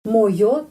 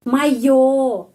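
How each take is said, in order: First: The first vowel sounds like o. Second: The first vowel sounds like a. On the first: The speaker calls it wrong. "kita menulis moyo" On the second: The speaker calls it right. "tapi o dibaca a"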